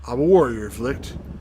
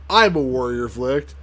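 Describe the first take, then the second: First: It is said flatly, without energy. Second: It is said with force and energy.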